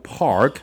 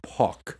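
First: It is said with an American rolled R. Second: It is said in a British accent, no R.

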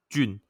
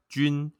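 First: The pitch stays in the middle and level. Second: The pitch stays high and level.

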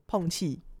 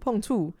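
First: It is said in the speaker's usual Taiwanese accent. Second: It is said in the Lukang Taiwanese accent. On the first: This is how the speaker's own family says it. "我们讲碰气" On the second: This is how people from another region say it. "他们说碰触"

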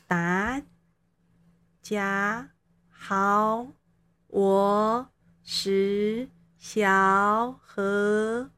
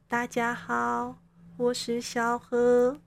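First: Every syllable is said with a rising pitch. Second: Every syllable is on a high level pitch. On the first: "那接下来我们到二声国咯。" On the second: "那接下来我就要开始示范一声国就是来说话咯。"

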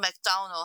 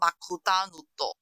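First: It is said with English-style pronunciation. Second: It is said with Japanese-style pronunciation. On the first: "就像我们说McDonald" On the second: "他说Makudanudo"

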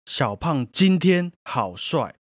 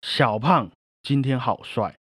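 First: The stress is on 今天. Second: The stress is on 小胖.

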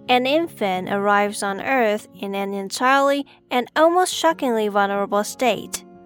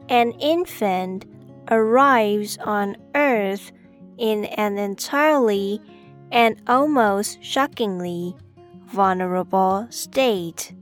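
First: It is said at normal speed. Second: It is said slowly.

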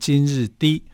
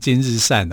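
First: The last syllable sounds like di. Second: The last syllable sounds like shan. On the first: The speaker calls it right. "它是念今日低" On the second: The speaker calls it wrong. "很多人把它读成今日善啊"

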